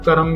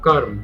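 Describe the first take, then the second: First: The word is said in a common colloquial form. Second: The word is said in its standard form. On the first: This is how people often say it. The speaker calls it wrong. "कई बार कर्म भी बोला जाता है" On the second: This is the pure, correct form. The speaker calls it right. "जो शुद्ध रूप है वो है कर्म"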